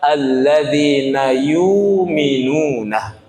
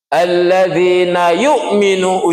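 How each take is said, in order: First: No glottal stop; the vowel is lengthened instead. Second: A glottal stop is heard after 'yu'. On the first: "Bagi mereka yang tak naruh hamzah" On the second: "uji kita karena ada hamzah menurut kita"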